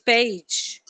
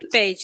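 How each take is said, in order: First: The vowel is a long A sound. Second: The vowel is a short a sound. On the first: The speaker calls it right. "This is page. A sound is there" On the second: The speaker calls it wrong. "this is not page"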